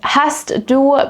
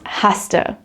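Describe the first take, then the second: First: The two words are said separately in full. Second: The two words merge into one word.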